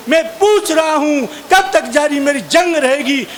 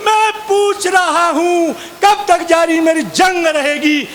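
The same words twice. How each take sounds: First: Said in the usual way. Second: Slow, higher, angrily declaimed line; frustrated poet repeating his only line in anger; angry recital. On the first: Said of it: "एक ही line बार बार बोलूँ". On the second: Retold or imitated. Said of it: "मुझे गुस्सा आया".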